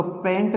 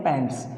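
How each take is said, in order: First: Singular पैंट without the final s, said as the wrong form. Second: पैंट्स with a clear final s, said low and firm; correct plural form. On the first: Teacher showing the wrong singular पैंट to a class. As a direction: say पैंट plainly with no s sound at the end. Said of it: "तो पैंट नहीं बोलते". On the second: Teacher giving pupils the correct plural पैंट्स. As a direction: end पैंट्स on a crisp s sound. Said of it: "इसको क्या बोलते हैं". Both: Shown as a demonstration.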